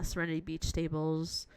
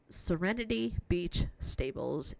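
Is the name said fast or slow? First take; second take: fast; slow. First: The name is said fast, words running together. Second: The name is said slowly, each word separate.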